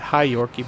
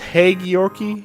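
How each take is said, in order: First: The first part of the name sounds like 'high'. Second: The first part of the name sounds like 'hague'. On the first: This is the speaker's habitual pronunciation. "I've always pronounced it High Yorkie" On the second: This is how the name's owner says it. "I think it's Hague Yorkie"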